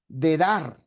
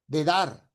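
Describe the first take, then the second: The two takes are said the same way.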